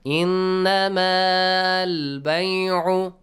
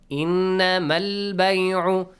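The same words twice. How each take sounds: First: The final vowel of innama is held long. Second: The final vowel of innama is cut short. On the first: The speaker calls it wrong. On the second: The speaker calls it right.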